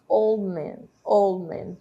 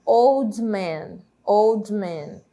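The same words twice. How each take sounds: First: Put-on "old man" with the D of "old" left out; silent D. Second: Put-on "old man" with the D of "old" pronounced; sounded D. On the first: Teacher shows how we say it, "old man" with D elided. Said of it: "como se o D não aparecesse". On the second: Teacher shows what we don't say, "old man" with D pronounced. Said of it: "A gente não fala". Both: Shown as a demonstration.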